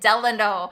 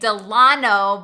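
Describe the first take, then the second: First: The name is said the way the hotel says it. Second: The name is said the way locals say it. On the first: This is the official version, which locals find pretentious. "the hotel itself calls it Delano" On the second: This is how people who live there say it. "locals call it Delano"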